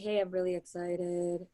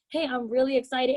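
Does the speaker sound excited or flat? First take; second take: flat; excited. First: It is said flatly, with little energy. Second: It is said with lively, excited energy. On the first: The speaker calls it wrong. "you don't want to say" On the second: The speaker calls it right. "Say it as if you're excited"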